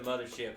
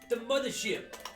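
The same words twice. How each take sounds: First: It is said in the speaker's normal voice. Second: It is said in a put-on impersonation voice.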